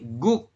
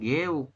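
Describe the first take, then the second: First: The vowel is rounded, like 'u'. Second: The vowel is unrounded, like 'eu'. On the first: The speaker calls it right. "tapi guk" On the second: The speaker calls it wrong. "Bukan geuk"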